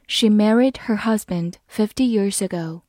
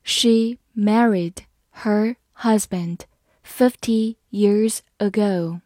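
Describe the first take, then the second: First: Said in the usual way. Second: Word by word, slowly; slow, careful model reading for learners. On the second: Shown as a demonstration. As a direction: read slowly with pauses between words. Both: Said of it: "慢慢来读".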